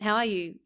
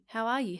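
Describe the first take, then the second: First: It sounds quick, casual and uninterested. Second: It sounds warm and sincerely interested.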